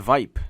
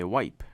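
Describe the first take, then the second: First: The word begins with a V sound. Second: The word begins with a W sound. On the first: The speaker calls it wrong. "Don't say wipe" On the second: The speaker calls it right. "You say wipe"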